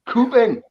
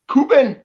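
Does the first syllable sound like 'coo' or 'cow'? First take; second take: coo; coo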